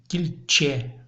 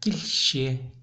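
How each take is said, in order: First: The consonant is a crisp ch sound. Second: The consonant is a soft shch-like sound. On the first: The speaker calls it wrong. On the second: The speaker calls it right.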